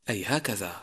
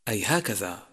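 Both takes have the same delivery.

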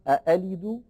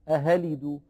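First: The second glottal stop is fully and clearly pronounced. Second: The second glottal stop is replaced by an h sound. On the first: "فلا هي محققة" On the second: "ولا هي مبدلة هاء"

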